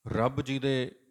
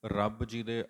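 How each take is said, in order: Both takes have the same delivery.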